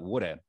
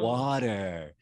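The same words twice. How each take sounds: First: It is said in a South African accent. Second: It is said in an American accent. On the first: The listeners did not understand the word. "in South Africa, I speak about water" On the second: The listeners finally understood the word. "they were like, "Oh, water.""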